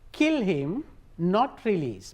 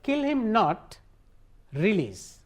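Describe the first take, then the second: First: There is a pause after 'him'. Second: There is a pause after 'not'. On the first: Kill him and do not release him. "kill him ළඟට කමාව දැම්මාම" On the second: Do not kill him; release him. "ඔහුව මරන්න එපා release කරන්න"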